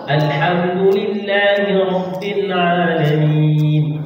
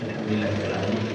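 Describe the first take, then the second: First: It is recited slowly with full vowel lengths. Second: It is recited quickly with clipped vowel lengths. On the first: This is how the imam reads in congregation. The speaker calls it right. "Pas bacaan, makhrajnya pas, panjang pendeknya pas" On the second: This is how one reads when praying alone. The speaker calls it wrong. "ketika kita salat sendiri"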